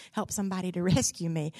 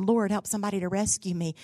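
First: Fast, chuckling through the plea; laughing. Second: Said in the usual way. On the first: Retold or imitated. Castaway begging God for rescue, laughing. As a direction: laugh mid-prayer.

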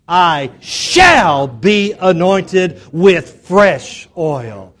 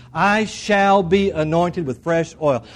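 First: "shall" stretched long and shouted; stress on SHALL. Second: Said in the usual way. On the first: Shown as a demonstration. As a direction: belt out "shall" high and long, slow declaration. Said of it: "emphasize the word "shall". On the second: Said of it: "say that last phrase".

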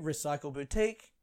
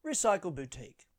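First: Recycle Boutique lifted at the end; announcer inflection. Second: Recycle Boutique falling away at the end; announcer inflection. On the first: Comedian returning to his inflection game, rising announcer. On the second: Comedian returning to his inflection game, falling announcer. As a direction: say Recycle Boutique as the stop reached, dropping. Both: Shown as a demonstration. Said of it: "what word was I saying".

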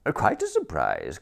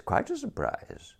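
First: Said in the usual way. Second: "quite a surprise" jumps far higher and trails off softer; flustered repeat. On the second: A narrator's reading. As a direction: squeak the repeat out nervously. Repeats the phrase, pitched up.

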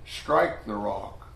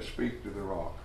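First: Slow, deliberate "Strike the rock."; God's earlier order "Strike the rock." said slowly; slow command. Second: "Speak to the rock." said softly and low; God's new order "Speak to the rock." said gently; soft command. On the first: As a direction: draw out "Strike the rock." word by word. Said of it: "But this time, God said". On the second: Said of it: "Only on that occasion, God said". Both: Shown as a demonstration.

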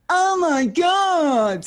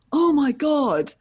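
First: Very high, very slow, loud "Oh my God"; drunken squeal. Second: Slow, high, loud "Oh my God"; drawn-out awed gasp at meeting her; starstruck gasp. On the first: Drunk [name] squealing back at the fan, high and slow. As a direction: stretch it out in a drunk shriek. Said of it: "And I went". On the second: Fan stunned to meet [name], slow high gasp. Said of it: "And he went". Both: Retold or imitated.

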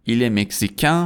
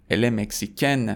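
First: Mexicain rising to a nasal vowel; French masculine mexicain, no final consonant; nasal ending. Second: Mexicaine closing on a sounded N; French feminine mexicaine with full final n; non-nasal ending. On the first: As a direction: end mexicain with the n silent. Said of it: "به خاطر اینکه توی بینیه". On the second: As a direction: end mexicaine on a clear "-ken". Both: Shown as a demonstration.

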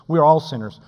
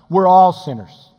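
First: Said in the usual way. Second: We're all sinners slowed, ALL leaned on louder; stress on all. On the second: Acted. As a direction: press down on all, slowly. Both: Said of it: "repeated sinners line".

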